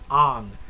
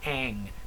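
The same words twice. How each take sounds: First: The name is said the way Asians say it. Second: The name is said the way Americans say it. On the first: The speaker calls it right. "That's what they call him in Asia" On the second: The speaker calls it wrong. "That's how we say it in the U S"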